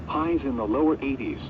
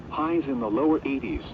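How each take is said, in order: Both takes have the same delivery.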